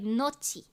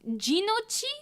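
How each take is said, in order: First: The word starts with an N sound. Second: The word starts with a G sound. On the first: "they would make the G silent" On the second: "Is how I pronounce it"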